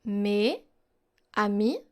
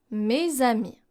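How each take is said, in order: First: Mes and amis split apart, s silent, no z; unlinked words. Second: Mes amis joined with a z, "mé-za-mi"; linked liaison. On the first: Teacher contrasting unlinked words before the liaison. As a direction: say Mes, pause, then amis with no linking. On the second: Teacher showing the joined form after the split one. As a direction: run mes into amis through a z sound. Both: Shown as a demonstration. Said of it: "becomes mes amis".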